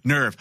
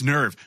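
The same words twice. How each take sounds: First: The vowel sounds like 'er' in her. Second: The vowel sounds like 'er' in her.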